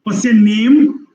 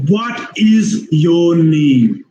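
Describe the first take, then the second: First: "What's your" squeezed, "name" long, high and rising; higher, questioning rise on a long "name"; expanded important word. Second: "What is your name" very slow, each word equal; slow, drawn-out word-by-word "What is your name"; full uncontracted form. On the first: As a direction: glue "What's your" together and lift "name". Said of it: "expand some important words". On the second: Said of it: "Otherwise, it is". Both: Shown as a demonstration.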